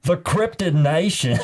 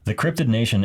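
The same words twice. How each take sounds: First: It is read in a put-on accent. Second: It is read in a plain voice.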